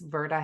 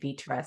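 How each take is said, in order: First: The R sound comes before the T. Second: The R sound comes after the T. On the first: The speaker calls it right. "I know it's Virta Health" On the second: The speaker calls it wrong. "I've been calling it Vitra"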